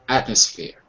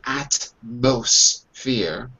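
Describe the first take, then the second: First: The M sound is left out entirely. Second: The M sound is clearly pronounced. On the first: "Or you just drop it completely" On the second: "Notice I don't say atmosphere"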